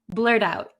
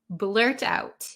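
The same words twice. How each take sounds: First: It is said quickly with the T like a D. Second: It is said slowly with a clear T sound.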